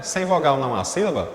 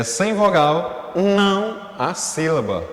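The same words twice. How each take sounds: First: Quicker question, without leaning on "não"; posed question. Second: Slow, stretched statement with weight on "não"; emphatic rule. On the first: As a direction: ask it as a quiz question, ending on a falling "sílaba". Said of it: "Tem até uma pergunta". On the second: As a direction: state it firmly, drawing out "não". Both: Shown as a demonstration.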